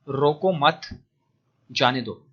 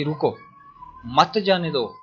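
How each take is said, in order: First: Slow रोको मत as one group, long pause, then जाने दो; pause after मत. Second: रुको alone, a clear pause, then मत जाने दो run together; pause after रुको. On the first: Teacher showing the comma moved to let him go, pause after मत. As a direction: join मत to रोको, break, then release जाने दो. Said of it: "phrase दूसरी अलग कर दी". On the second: Teacher reading the phrase with a comma after रुको, pause after रुको. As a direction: break after रुको, keeping मत joined to जाने दो. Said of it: "यहाँ पे वो कोमा लगा देता है". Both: Shown as a demonstration.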